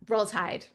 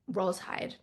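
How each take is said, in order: First: It sounds like a friendly greeting. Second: It sounds like gentle, sympathetic condolence.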